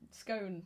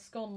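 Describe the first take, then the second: First: The vowel is long, rhyming with cone. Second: The vowel is short, rhyming with gone. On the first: "scone like cone" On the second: "scone like gone"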